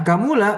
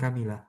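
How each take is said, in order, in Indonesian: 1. Vokal setelah m itu u. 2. Vokal setelah m itu i. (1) "bidomil mim seperti ini" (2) "bi kasril mim jadi Kamila"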